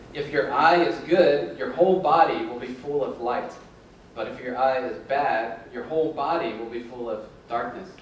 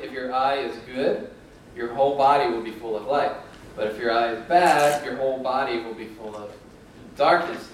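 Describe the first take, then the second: Both takes have the same delivery.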